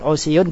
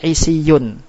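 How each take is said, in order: First: The first vowel is a u sound. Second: The first vowel is an i sound. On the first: "Pertama tetap" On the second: "harokat idba mengikuti harokat ain kalimah yaitu kasro, maka dibaca"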